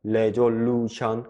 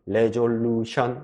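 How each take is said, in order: The two takes are said the same way.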